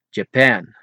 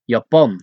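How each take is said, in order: First: Japan as juh-PAN with an English j; English pronunciation. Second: Japan as YAH-pahn with a y sound; Dutch pronunciation. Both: Shown as a demonstration.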